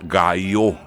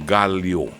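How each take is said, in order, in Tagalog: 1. Binibigkas ito nang may pronunsasyong Kastila. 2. Binibigkas ito nang may pronunsasyong Pilipino. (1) "Ang pronunciation niya ng mga Kastila" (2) "Sa ating mga Pilipino, ang pronunciation natin dyan"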